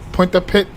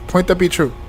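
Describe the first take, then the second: First: The name ends in one short syllable, 'pit'. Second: The name ends in two syllables, 'pee-truh'. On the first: "it's pre-announced as a pit. Say it fast" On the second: "It was point the P true"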